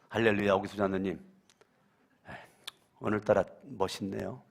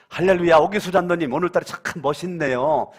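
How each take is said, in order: First: It sounds mocking and sarcastic. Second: It sounds warm and sincerely praising. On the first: The speaker is mocking the person. The speaker calls it wrong. "그러면 기분이 조금 찜찜합니다. 저거 비꼬는 거요" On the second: The speaker genuinely admires the person. The speaker calls it right. "이러면 기분 삼삼하죠. 저거 칭찬하는 거요"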